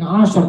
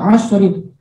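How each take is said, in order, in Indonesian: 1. Kata ini berakhir dengan bunyi r mati. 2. Kata ini berakhir dengan akhiran -rin. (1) "Walayalin ashar" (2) "tidak ashrin"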